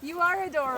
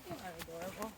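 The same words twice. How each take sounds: First: It is said louder. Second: It is said at normal, quieter volume.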